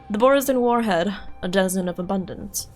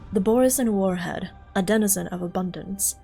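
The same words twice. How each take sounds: First: It is read in a put-on, dramatic report voice. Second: It is read in a plain, ordinary voice.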